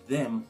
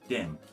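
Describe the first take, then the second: First: The word begins with a soft th sound. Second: The word begins with a d sound.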